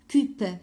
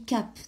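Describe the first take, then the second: First: The vowel is a short 'uh' sound. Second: The vowel is an open 'a' sound. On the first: The speaker calls it wrong. "quelques-uns qui ont dit cup" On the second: The speaker calls it right. "il se lit cap"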